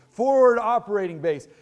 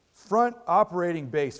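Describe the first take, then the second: First: "Forward operating base" said louder and higher, emphatic; corrected term. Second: Said in the usual way. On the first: Shown as a demonstration. Preacher correcting himself on the military term, emphatic. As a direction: land "Forward operating base" firmly as the fix. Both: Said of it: "if I'm getting the terminology wrong".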